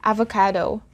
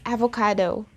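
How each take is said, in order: First: It is said with an English pronunciation. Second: The same.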